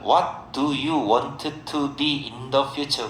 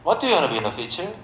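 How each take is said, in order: First: "Want to" is said as two separate words. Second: "Want to" is blended into a quick "wanna". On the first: This is how Korean speakers say it. "한국 사람들은" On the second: This is how native speakers say it. "원어민 발음으로 하면 그렇습니다"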